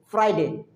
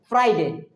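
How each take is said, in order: Both takes have the same delivery.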